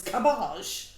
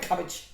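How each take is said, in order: First: Put-on posh French cabbage; mock French accent. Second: Said in the usual way. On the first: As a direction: make cabbage grandly French, drawn out. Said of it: "like, French or posh".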